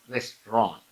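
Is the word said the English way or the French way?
French. It is said with a French pronunciation. The speaker calls it right. "it's restaurant"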